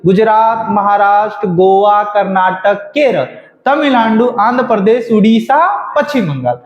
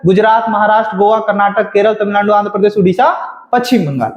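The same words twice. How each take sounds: First: Said in the usual way. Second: Gujarat to Paschim Bengal rattled off without pauses; quick-fire memorised list, dropping at the end; rapid recitation. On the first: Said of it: "सब लोग मेरे साथ बोलिए". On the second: Shown as a demonstration. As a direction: run the list of states together at speed. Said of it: "ये speed होना चाहिए".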